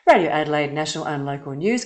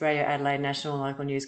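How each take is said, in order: First: The voice sounds smiling and more animated. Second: The voice sounds flat, with little animation. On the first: The speaker calls it right. "If I get that smile happening in my cheeks" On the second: The speaker calls it wrong. "if I were to talk like this"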